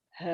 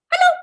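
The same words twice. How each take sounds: First: Hugely stretched-out hello; as slow as possible. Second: Split-second hello; as fast as possible. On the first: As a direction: drag every sound out playfully. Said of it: "as slow as we can". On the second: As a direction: blurt hello in one quick burst. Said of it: "as fast as we can". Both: Shown as a demonstration.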